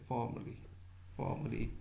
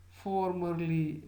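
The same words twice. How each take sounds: First: "formerly" with the r dropped, as "faw-muh-lee"; R left silent. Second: "formerly" slow and higher, with a sounded r; hint of R, stressed. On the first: Lecturer showing the ordinary non-rhotic way, r-less "formerly". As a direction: say "formerly" lightly, without sounding the r. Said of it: "Otherwise, don't pronounce it". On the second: Lecturer emphasizing past status, stressed "formerly" with an r. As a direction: stress "formerly" and let the r be heard. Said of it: "may be said with a hint of ra". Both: Shown as a demonstration.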